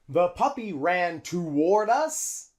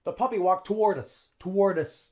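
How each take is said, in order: First: "toward" said slowly with a full too. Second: "toward" starts with a quick t, linked to us; reduced toward. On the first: Teacher showing the too-long "toward". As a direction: draw out the first syllable of "toward". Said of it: "it's too long". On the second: Teacher modeling the reduced "toward". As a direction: clip the first vowel of "toward". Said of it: "T, t". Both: Shown as a demonstration.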